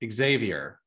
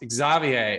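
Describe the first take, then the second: First: The name is said with an American pronunciation. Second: The name is said with a French pronunciation. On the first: "here in the US, we pronounce it Xavier" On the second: "in France, if I'm correct, your name is pronounced Xavier"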